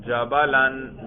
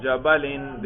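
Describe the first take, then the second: First: جبلن said as "jabalan"; accusative -an ending. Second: جبلن said as "jabalin"; genitive -in ending. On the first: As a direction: end جبلن clearly on "-an". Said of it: "نصب پہ ذرا تلفظ کریں". (جبلن کو "جَبَلَن" پڑھیں) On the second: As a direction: end جبلن clearly on "-in". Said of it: "جر پہ ذرا تلفظ کریں". (جبلن کو "جَبَلِن" پڑھیں) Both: Shown as a demonstration.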